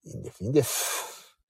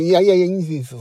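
First: A soft whispered never mind; whispered refusal. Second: Loud, insistent no-no-no; louder protest that it's fine; emphatic refusal. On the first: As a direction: whisper it's fine, twice. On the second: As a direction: wave it off loudly, higher. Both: Real, not acted. Humbly waving off thanks.

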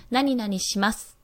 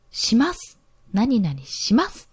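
First: 何々します said slowly, with します falling at the end; slow 何々します and bring the end down; ending drops. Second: 何々します said slowly, with します ending up high; ending ends high. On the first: Host demos the lowered ending she was told to use. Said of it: "こう下げるような言い方". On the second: Host demos her old habit of ending high. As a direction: drag out 何々します and let the end rise. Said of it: "全部高い音で終わっちゃっている". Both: Shown as a demonstration.

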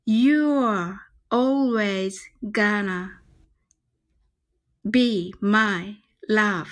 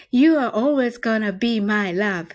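First: Very slow, every word drawn out; slow demo. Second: At natural speed, one flowing line; faster take. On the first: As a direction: spell it out slowly for learners. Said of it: "皆さんでちょっとゆっくりね". (ゆっくり練習用の発音) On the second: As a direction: say it through at normal speed. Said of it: "では、早く言ってみましょう". (普段の速さで通して) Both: Shown as a demonstration.

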